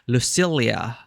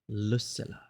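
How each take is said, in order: First: The double L is said like 'ly'. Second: The double L is said as plain L. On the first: This is how a reader from the speaker's country would say it. "if I were to read it as someone from my country. Double L tends to be Lucilia" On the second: This is the pronunciation used in the game. "in this game they pronounce it Lucilla"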